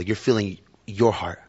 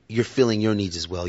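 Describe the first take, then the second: First: "your" leaned on, said slowly with a falling end; slow down and press "your heart"; slow emphasis. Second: Said in the usual way. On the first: Shown as a demonstration. Preacher restating the point slowly, stress on "your".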